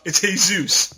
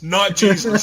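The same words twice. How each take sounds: First: "Jesus" said the Spanish way, Hay-SOOS; "Jesus" with Spanish h sound and stress on the end. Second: "Jesus" said the English way, GEE-zus; "Jesus" with English j and stress first. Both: Retold or imitated. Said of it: "Jesus was probably like".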